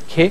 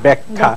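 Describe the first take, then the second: First: The word ends with an 'e' vowel. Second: The word ends with an 'a' vowel. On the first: The speaker calls it wrong. "ব্যাখ্যে হলো না কিন্তু।" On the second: The speaker calls it right. "হলে হয়েছে ব্যাখ্যা"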